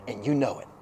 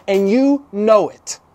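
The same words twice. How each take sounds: First: Low, soft tail of a sentence; quiet aside. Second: YOU KNOW IT slow and raised; emphatic repeat. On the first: Preacher to congregation about claiming no credit, quiet aside. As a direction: drop KNOW IT down low and soft. First take, thrown away quietly. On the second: Preacher driving it home to the congregation, slow emphasis. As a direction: stretch each word, higher, weight on YOU KNOW. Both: Real, not acted.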